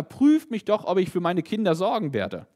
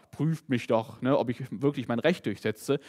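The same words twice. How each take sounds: First: Higher and louder, a loving father calling out. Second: Lightly voiced strict judge. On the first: Retold or imitated. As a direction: lift it up like a proud loving father offering. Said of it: "sondern hier sagt ein liebender Vater". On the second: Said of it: "hier sagt nicht ein strenger Richter oder Verwalter".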